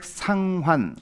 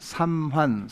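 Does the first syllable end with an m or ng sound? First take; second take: ng; m. First: The first syllable ends with an ng sound. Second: The first syllable ends with an m sound. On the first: "읽을 때 주택 상환" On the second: "삼환 이렇게 외워. 삼자 나오지"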